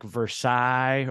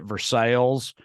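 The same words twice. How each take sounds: First: It is pronounced the French way. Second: It is pronounced the local Southern way. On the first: It names the original foreign city. "the names of like better, more metropolitan foreign cities like Versailles" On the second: It names the local Southern town. "then they pronounce it Versailles"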